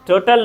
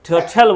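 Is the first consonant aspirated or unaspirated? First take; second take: unaspirated; aspirated. First: The first consonant has no puff of air. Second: The first consonant has a strong puff of air. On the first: The speaker calls it wrong. "टोटल नहीं" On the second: The speaker calls it right. "टोटल बोलेंगे"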